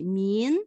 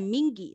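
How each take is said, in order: First: The word ends with only a nasal sound. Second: The word ends with an audible hard g sound. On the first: The speaker calls it right. "esse G é um pronúncio vem de nariz mais forte" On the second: The speaker calls it wrong. "Não é Ming, não tem Gui"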